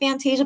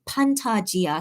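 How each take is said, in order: First: It is said with an American pronunciation. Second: It is said with a Korean pronunciation. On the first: "I pronounce it Fantasia because that's like kind of the American way" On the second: "if I say it in Korean, I say the Korean way"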